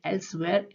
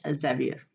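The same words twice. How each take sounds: First: एल्सवेयर spoken as "els-ware", with an s and no middle vowel; एल्सवेयर as "els-ware", with a slight rise at the end; Elsevier said as Elsware. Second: एल्जेवियर spoken as "el-ze-vi-er", with a z and four syllables; एल्जेवियर as "el-ze-vi-er", falling to close the pair; Elsevier said as El-ze-vier. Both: Shown as a demonstration. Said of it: "इसके दो pronunciation है".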